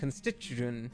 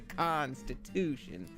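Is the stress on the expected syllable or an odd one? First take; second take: odd; expected. First: The stress falls on an unexpected syllable. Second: The stress falls on the usual syllable. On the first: The speaker calls it wrong. "the emphasis is on all the wrong, like, you know, syllables" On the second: The speaker calls it right. "You gotta say constitution"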